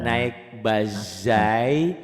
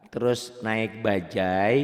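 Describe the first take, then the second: First: "bajai" stretched out as "bazai"; very slow "bajai" with a buzzing Z; J swapped for Z. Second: "bajai" with a firm J in the middle; slow drill, hard "ja" in "bajai"; hard J sound. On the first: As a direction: put Z in place of J in "bajai". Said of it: "bahasa itu ganti dengan Z". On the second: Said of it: "ja keras semuanya". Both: Shown as a demonstration.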